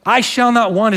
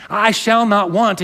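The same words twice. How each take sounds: First: "I shall not want" read as a promise, hitting "I"; stress on I. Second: Slow, with "shall" leaned on like a rule; "I shall not want" read slowly, hitting "shall"; stress on SHALL. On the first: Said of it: "is not a prohibition". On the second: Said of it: "might hear this as a prohibition". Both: Shown as a demonstration.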